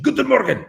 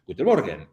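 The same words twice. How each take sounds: First: High, loud shouted GUTEN MORGEN; mock harsh German. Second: Italian accent. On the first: Streamer imitating happy Germans greeting, mock harsh shout. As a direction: fire off GUTEN MORGEN as if mad but affectionate. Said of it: "how the Germans show their affection". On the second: Shown as a demonstration. Streamer repeating a German greeting, sounding Italian. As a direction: lower GUTEN MORGEN in an Italian accent. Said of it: "why am I sounding Italian?".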